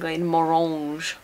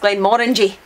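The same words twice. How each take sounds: First: The name is said with a French-sounding accent. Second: The ending sounds like the word 'orangy'. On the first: The speaker calls it wrong. "pronounced a bit Frenchly" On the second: The speaker calls it right. "But it's Glenmorangie. Aye, like orangy"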